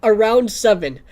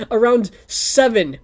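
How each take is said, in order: First: Loud insistence on "Around seven"; "Around" punched, "seven" falling; emphatic correction. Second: Loud, slow, stressing AROUND; "Around seven" hammered home to chat; emphatic correction. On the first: Streamer repeating the time to chat, loud and insistent. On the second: Streamer correcting the time for chat, loud and slow. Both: Shown as a demonstration. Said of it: "I almost said the number again".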